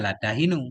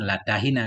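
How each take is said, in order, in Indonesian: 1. Kata terakhir berakhir dengan vokal 'u'. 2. Kata terakhir berakhir dengan vokal 'a'. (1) "Ada juga yang baca latahinu" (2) "yang sering kalau kita baca Quran latahina"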